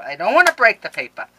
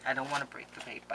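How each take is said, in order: First: Higher, much louder plea; loud, swooping cry of dismay; loud anxious wail. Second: Soft, quick aside; hushed, hurried concern. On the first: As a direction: wail it, fretting over the paper. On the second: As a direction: say it quickly under the voice. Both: Real, not acted. Same words, low then cried out.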